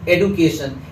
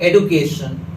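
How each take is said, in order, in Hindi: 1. बीच का व्यंजन 'd' ध्वनि है। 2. बीच का व्यंजन 'd' ध्वनि है।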